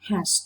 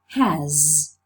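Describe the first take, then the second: First: It ends in a hissing s sound. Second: It ends in a buzzing z sound. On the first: "the voiced fricative z becomes voiceless" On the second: "When you use it in isolation, you pronounce it has"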